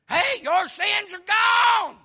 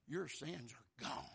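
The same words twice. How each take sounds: First: Loud, high, slow shout; joyful shout. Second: Softer, lower and slow; soft Jesus voice. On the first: Jesus tells the woman her sins are gone, shouting joyfully. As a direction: proclaim it like the best news ever. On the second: Jesus tells the sinful woman her sins are gone, softly. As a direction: gently tell her, quietly. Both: Acted. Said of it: "and he said".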